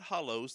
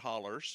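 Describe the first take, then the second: First: The word ends with an 'oh' sound. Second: The word ends with an 'er' sound. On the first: This is the way other people say it. "they're not hollows" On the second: This is the local way of saying it. "they're hollers"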